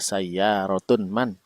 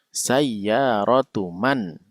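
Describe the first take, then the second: First: The first word ends with an n sound. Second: The first word ends in a plain vowel. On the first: The speaker calls it wrong. "tidak dibaca sayyarotun man, tidak" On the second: The speaker calls it right. "dhammah biasa tanpa tanwin"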